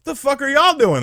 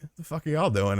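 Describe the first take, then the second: First: High, loud, disbelieving outburst; incredulous question. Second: Soft, slightly high retold question; puzzled question. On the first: Retold or imitated. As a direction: imitate total bafflement, pitched way up. Same question when more kids arrive. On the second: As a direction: ask it under your breath. Retold question to arriving bunkmates.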